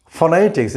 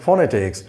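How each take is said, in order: First: "Phonetics" with a weak schwa first syllable; correct pronunciation. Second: "phonetics" with a full O in the first syllable; wrong pronunciation. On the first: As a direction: say "Phonetics" as fuh-NET-iks, second syllable stressed. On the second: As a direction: say "phonetics" as foh-netics, no schwa. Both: Shown as a demonstration. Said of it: "it is not phonetics".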